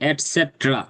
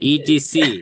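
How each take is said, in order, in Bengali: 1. এটি একটি পূর্ণ শব্দ হিসেবে বলা হয়। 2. এটি তিনটি আলাদা অক্ষর হিসেবে বানান করে বলা হয়। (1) "এটা বলতে হবে এরকম ভাবে" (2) "আমরা ইটিসি বলি না"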